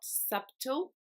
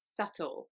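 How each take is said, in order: First: The b sound is pronounced in the middle. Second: The b sound is silent in the middle. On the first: The speaker calls it wrong. "this B is not actually pronounced. So it's not subtle" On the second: The speaker calls it right. "it's subtle"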